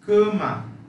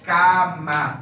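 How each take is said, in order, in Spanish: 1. La primera vocal es una a cerrada. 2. La primera vocal es una a abierta. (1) "es cama" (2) "No es cama"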